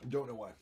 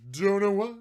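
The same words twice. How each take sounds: First: Said in the usual way. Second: Loud high repeat; higher, louder take. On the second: Pretend. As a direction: belt it up high.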